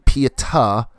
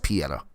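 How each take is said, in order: First: The name is said with careful, full enunciation. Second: The name is said loosely, without extra enunciation. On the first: This is the technically correct pronunciation. "I know it's technically Pieta" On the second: This is the speaker's own simplified pronunciation. "I'm not putting the extra enunciation on her name"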